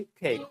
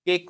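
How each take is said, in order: First: "केक" with an aspirated first k; model pronunciation. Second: Said in the usual way. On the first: Shown as a demonstration. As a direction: puff air to open "केक". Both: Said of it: "केक को क्या बोलोगे?".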